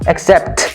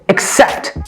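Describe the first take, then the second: First: The stress is on the first syllable. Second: The stress is on the second syllable. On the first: The speaker calls it wrong. "We do not say accept" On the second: The speaker calls it right. "We say accept. So I have the stress"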